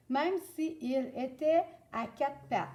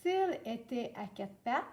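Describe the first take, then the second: First: "si il" as two full syllables; both vowels sounded in "si il"; uncorrected si il. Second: "s'il" run together as one syllable; the fixed version, vowel dropped in "s'il"; corrected elision. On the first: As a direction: read the student's "si il était" unelided. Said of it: "t'as deux voyelles, ton I de ci, ton I de il". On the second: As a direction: elide to "s'il était". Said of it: "on la remplace par un apostrophe pour faire notre liaison". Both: Shown as a demonstration.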